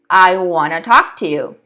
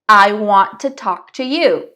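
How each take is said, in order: First: "Want to" is run together quickly as "wanna". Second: Each word of "want to" is said clearly and separately. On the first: "la pronunciación más nativa acortada" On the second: "La pronunciación perfecta, ultra clara"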